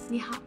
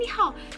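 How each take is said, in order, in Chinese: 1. 这句问候是轻声、安静地说的。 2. 这句问候是大声、突然地说的。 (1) "轻声说你好" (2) "不要很大声说哎你好"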